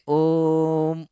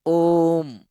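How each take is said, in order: First: ओम with the ओ drawn out very slowly before म; extra long om. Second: ओम with the ओ stretched long before म; ओम chanted with long ओ. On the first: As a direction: stretch ओ far, then म. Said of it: "फिर और भी लंबा खींचे ओ को". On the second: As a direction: hold ओ, then close on म. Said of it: "ओ को थोड़ा सा लंबा खींचे". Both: Shown as a demonstration.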